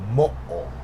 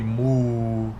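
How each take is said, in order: First: It does not sound like a cow's moo. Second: It sounds like a cow's moo. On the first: The speaker calls it right. "You would say mo'o" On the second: The speaker calls it wrong. "you wouldn't say moo like a cow"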